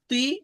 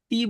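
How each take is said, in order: First: The vowel after the letter sounds heavy and darker. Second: The vowel after the letter sounds plain and light. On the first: The speaker calls it right. "কাসরার উচ্চারণটা একটু ব্যতিক্রম হবে" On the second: The speaker calls it wrong. "এই যে তি বলা যাবে না"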